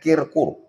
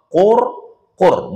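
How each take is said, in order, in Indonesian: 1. Suku kata pertama memakai vokal i. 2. Kedua suku kata memakai vokal u. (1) "bukan kirkur" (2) "dua qafnya berbaris dhammah"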